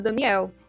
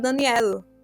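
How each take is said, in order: First: It is said with a Brazilian Portuguese accent. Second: It ends with a European Portuguese style L. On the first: "Aqui na cultura brasileira, é, o português do Brasil, a gente chama Daniel" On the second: "com o L do, do jeito que os portugueses de Portugal falam"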